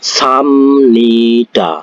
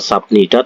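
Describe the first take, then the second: First: An m sound comes before nida. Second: A b sound comes before nida. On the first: The speaker calls it right. "tapi samnida seperti itu" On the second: The speaker calls it wrong. "bacanya bukan sabnida"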